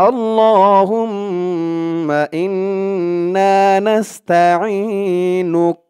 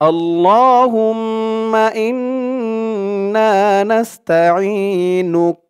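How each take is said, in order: No difference in how they are said.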